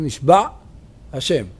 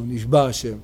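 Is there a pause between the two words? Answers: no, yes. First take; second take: yes; no. First: A short pause separates the two words. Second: The two words run together without a pause. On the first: It means someone swore by God. The speaker calls it right. "צריך להגיד נשבע השם" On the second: It sounds as if God is held captive. The speaker calls it wrong. "כאילו הקדוש ברוך הוא שבוי בידי מישהו"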